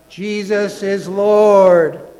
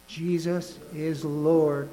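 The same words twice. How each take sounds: First: It is said with strong conviction. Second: It is said plainly, without strong feeling.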